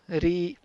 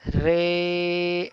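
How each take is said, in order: First: The vowel after r is a long ee. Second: The vowel after r leans toward ay. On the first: "Ra standing kasra" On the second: "Ra of Imala"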